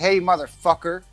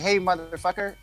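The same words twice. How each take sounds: First: It sounds cold and hostile. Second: It sounds warm and friendly. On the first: It is an insult to a stranger. "it depends on how you say it" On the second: It is an affectionate greeting between friends. "you're my friend, you know it's it's a genuine term"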